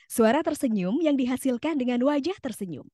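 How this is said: The voice sounds bright and smiling. The cheerfulness is heard and spreads to the listener. The speaker calls it right. "kalau aku membacanya dengan smiling voice"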